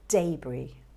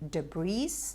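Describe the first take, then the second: First: No S sound is pronounced at the end. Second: An S sound is pronounced at the end. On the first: The speaker calls it right. "It's actually debris" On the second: The speaker calls it wrong. "confuse the S at the end and say debris"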